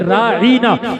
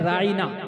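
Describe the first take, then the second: First: A vowel is stretched out long. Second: The vowels are said short, without stretching. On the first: It turns into a mocking 'our shepherd'. The speaker calls it wrong. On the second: Please attend to us. The speaker calls it right.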